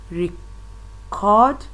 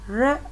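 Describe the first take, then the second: First: The stress is on the second syllable. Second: The stress is on the first syllable. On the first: It is used as a verb. "placed on the second syllable, it will change to a verb" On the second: It is used as a noun. "placed on the first syllable, it is a noun"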